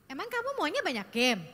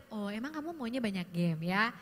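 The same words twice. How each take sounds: First: Sharp, doubting "Emang kamu maunya banyak game?"; challenging intonation. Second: Gentle curious tone. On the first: Parent questions a teen about games, challenging. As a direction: ask "banyak game" as an accusation. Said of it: "dengan intonasi seperti itu". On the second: Parent asks a teen about games, gently curious. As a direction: ask it kindly, genuinely curious. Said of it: "Akan beda dengan". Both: Shown as a demonstration.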